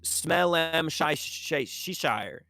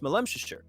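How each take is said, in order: First: The name is broken up with stumbling repeated sounds. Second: The name flows smoothly in one rhythmic go. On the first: The speaker is an outsider struggling with the name. "Anyone else who sees it goes" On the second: The speaker is a local who knows the name. "the people who are from there, you know, they know how to say it"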